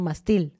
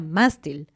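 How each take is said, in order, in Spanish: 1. La tónica está en la segunda sílaba. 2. La tónica está en la primera sílaba. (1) "no mastil" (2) "se pronuncia mástil"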